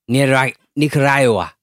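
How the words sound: The name is said with a Spanish accent.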